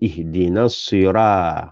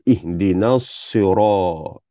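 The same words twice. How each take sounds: First: The r sound is light and thin. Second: The r sound is heavy and thick. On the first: The speaker calls it wrong. "Jangan ihdinas sira, ra salah" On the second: The speaker calls it right. "ra tu kena tebal"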